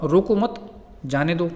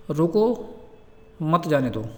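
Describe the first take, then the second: First: रोको मत joined, then a break before जाने दो; slowly group रोको मत apart from जाने दो; pause after मत. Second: रोको set apart, then a long pause before मत जाने दो; pause after रोको. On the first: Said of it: "मतलब तो दोनों का अलग-अलग हो जाता है". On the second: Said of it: "जैसे अपन बोलते हैं ना कि एक शब्द है". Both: Shown as a demonstration.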